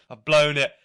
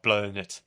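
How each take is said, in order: First: Despairing repeat. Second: Said in the usual way. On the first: Retold or imitated.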